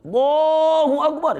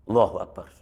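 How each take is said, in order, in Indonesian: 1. Frasa ini diucapkan dengan keras dan kencang. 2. Frasa ini diucapkan dengan pelan dan lirih. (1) "maka disunatkan yang kencang" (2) "maka lirihkan"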